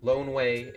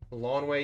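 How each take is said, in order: First: The first syllable sounds like 'loan'. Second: The first syllable sounds like 'lawn'.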